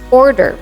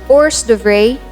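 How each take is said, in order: First: The word is reduced, with many sounds dropped. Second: The word is said with all its letters. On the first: The speaker calls it right. "you need to drop a lot of letters and just say" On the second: The speaker calls it wrong. "usually pronounced as"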